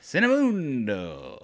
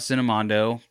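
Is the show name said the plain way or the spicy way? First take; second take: spicy; plain. First: The name is said in a spicy, playful form. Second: The name is said in its plain, standard form. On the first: The speaker calls it wrong. "Instead of Cinemundo, the spicy flavor" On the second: The speaker calls it right. "I even said it right just for you"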